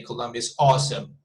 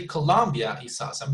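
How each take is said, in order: First: Awesome stressed, falling at the end; Betonung auf AWESOME. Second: Colombia lifted and stressed, rest relaxed; emphasize the country, Colombia; Betonung auf COLOMBIA. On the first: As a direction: save the punch for awesome. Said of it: "We could also say". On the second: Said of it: "you're emphasizing on the country". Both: Shown as a demonstration.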